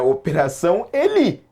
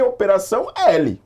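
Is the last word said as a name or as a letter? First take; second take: name; letter. First: The last word sounds like the name Eli. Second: The last word sounds like the letter L. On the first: It is just a name with no hidden message. "tanto que eu li aqui pra vocês" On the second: It hints at the slogan 'faz o L'. "Alguns leem"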